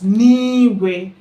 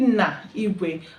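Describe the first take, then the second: First: The vowel of na is dropped and merged. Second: The vowel of na is fully pronounced. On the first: "so pronounced as niwe" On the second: "it's actually na igwe"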